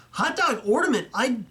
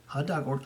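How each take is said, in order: First: Hot dog ornament? jumps much higher in real disbelief; hot dog ornament? rises high in a genuine double take; the ornament catches him off guard and he re-reads it, high and astonished; surprised double take. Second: Said in the usual way. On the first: Real, not acted.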